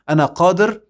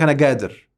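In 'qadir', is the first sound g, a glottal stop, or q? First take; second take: q; g. First: The word starts with a deep q sound. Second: The word starts with a hard g sound. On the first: The speaker calls it right. "القاف يقول لك مثلا" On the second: The speaker calls it wrong. "والتاني يقول لك"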